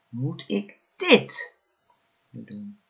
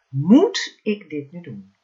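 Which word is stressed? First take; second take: dit; moet. First: The stress falls on the word dit. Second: The stress falls on the word moet. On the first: "elke keer de klemtoon op een ander woord gelegd" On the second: "elke keer de klemtoon op een ander woord gelegd"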